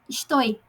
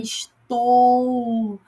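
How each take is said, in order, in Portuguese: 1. A palavra termina com som de 'oi', parecido com o espanhol. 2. A palavra termina com som de 'ou', como em português. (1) "A gente fala estou. Não" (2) "é estou"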